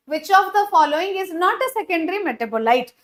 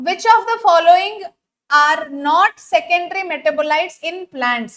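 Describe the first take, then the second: First: Said in the usual way. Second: Slow, deliberate question read; stretched, careful delivery. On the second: Shown as a demonstration. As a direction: read it out slowly for the class. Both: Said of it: "సరే, స్లోగా చెప్తాను".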